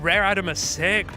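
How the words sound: It is said in an imitated put-on voice.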